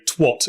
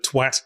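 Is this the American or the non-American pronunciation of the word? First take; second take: American; non-American. First: The word is said with the American vowel. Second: The word is said with a non-American vowel. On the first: "who is it who went around telling you all to say twat" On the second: "instead of twat"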